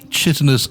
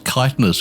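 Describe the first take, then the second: First: The word starts with a ch sound. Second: The word starts with a k sound. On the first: The speaker calls it wrong. "they say chitinous as well" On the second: The speaker calls it right. "It should be a K"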